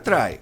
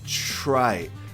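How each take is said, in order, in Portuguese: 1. O t é um som de t simples e nítido. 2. O t soa próximo a um som de ch. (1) "Não é try" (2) "é try. Nem parece que tem um T ali, né? Ch"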